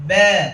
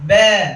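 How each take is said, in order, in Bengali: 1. স্বরধ্বনিটি 'e' ধ্বনির দিকে ঝোঁকা। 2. স্বরধ্বনিটি 'e' ধ্বনির দিকে ঝোঁকা।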